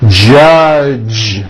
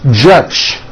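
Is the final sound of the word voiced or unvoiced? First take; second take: voiced; unvoiced. First: The final sound is a voiced j. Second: The final sound is an unvoiced ch. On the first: The speaker calls it right. "This voiced J sound comes at the beginning and at the end of the word judge" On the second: The speaker calls it wrong. "turning that last sound into an unvoiced C H"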